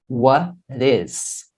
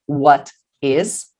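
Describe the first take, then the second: First: The t becomes a quick r-like flap. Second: The t is a clear, separate t sound. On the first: "este T aqui, entre estas duas vogais, vai virar R" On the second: "Eu posso dizer what is"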